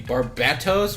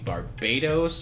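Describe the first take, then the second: First: The middle consonant is a clear t sound. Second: The middle consonant is a d sound. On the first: "which would be the emphasis on like the Bat tribe" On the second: "which is stupid"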